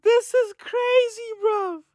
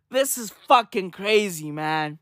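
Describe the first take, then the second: First: Pitched way up in disbelief; can't believe what he just heard; high, cracking disbelief; incredulous. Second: Said in the usual way. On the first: Real, not acted. Disbelief at the story.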